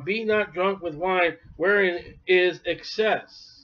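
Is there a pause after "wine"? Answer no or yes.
no. There is no pause after "wine". Only drunkenness is excess, so moderate drinking is fine. The speaker calls it wrong.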